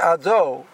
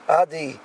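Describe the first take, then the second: First: The second syllable has an o vowel. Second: The second syllable has an i vowel. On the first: The speaker calls it right. "he has to say Ado" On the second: The speaker calls it wrong. "it ends up sounding more like an E sound or an I sound"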